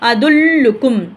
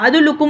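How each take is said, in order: First: The l sound is doubled and pressed. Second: The l sound is short and single. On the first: The speaker calls it right. "அந்த லெட்டரை மட்டும் தான் அழுத்தி ப்ரொனவுன்ஸ் பண்ணணும்" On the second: The speaker calls it wrong. "அது தப்பா போயிடும்"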